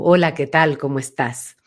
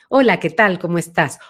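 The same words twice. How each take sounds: First: The voice has a deep, back resonance. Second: The voice has a medium, central resonance.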